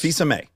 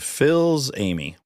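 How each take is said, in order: First: The name is said with French sounds. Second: The name sounds like English 'Phil's Amy'. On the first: "good job" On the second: "if I pronounce it phonetically, I'd say"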